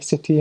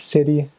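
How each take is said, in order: First: The middle consonant is a crisp T sound. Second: The middle consonant is a soft D sound. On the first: This is how a Welsh speaker says it. "a sister missionary from Wales would, I'm pretty sure she would say city" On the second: This is how an American says it. "not city like an American"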